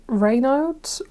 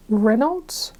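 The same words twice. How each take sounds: First: Reynolds with a long "ray" first syllable; trying a pronunciation. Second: Reynolds with a short "ren" first syllable; second pronunciation. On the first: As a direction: say Reynolds as "RAY-nolds", drawn out. Trying two pronunciations of a name. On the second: Second try at the name. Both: Real, not acted.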